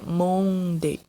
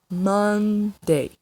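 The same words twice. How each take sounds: First: The first vowel is closed. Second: The first vowel is open. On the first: The speaker calls it wrong. "Não é Monday" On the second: The speaker calls it right. "esse som do O, ele é mais aberto. Então é Monday"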